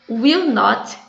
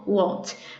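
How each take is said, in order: First: Both words are said in full. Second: The words merge into one short syllable.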